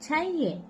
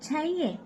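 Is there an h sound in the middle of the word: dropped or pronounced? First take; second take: dropped; dropped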